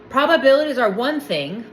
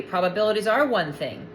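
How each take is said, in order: First: PROBABILITIES hit hard, tune left rising; stress on PROBABILITIES. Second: ARE picked out, tune falling at the end; stress on ARE. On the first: Speaker conceding a point to commenters, stress on probabilities. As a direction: punch probabilities, then leave the line open. Statement repeated with shifted stress. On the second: Speaker restating the agreed point to commenters, stress on are. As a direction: lean on are and close the line downward. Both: Real, not acted.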